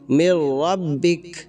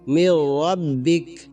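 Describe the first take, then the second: First: The phrase ends on a bare consonant. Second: The phrase ends on a bare consonant.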